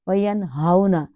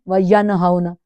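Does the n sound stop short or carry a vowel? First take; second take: stops short; vowel. First: The n sound stops short without a vowel. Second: The n sound carries an added vowel. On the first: The speaker calls it right. "नून साकिन के ऊपर जज्म है, जज्म को no movement" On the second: The speaker calls it wrong. "ऐसे नहीं करना"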